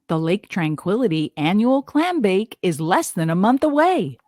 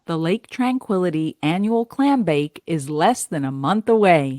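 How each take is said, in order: First: It is read with lively, varied inflection. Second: It is read warmly with a smile.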